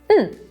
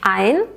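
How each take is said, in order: First: The article is reduced to just an n sound. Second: The article is said in full with its vowel.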